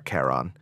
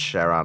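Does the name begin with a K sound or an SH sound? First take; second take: K sound; SH sound. First: The name begins with a K sound. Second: The name begins with an SH sound. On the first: "or Karen" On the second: "it sounds like Sharon"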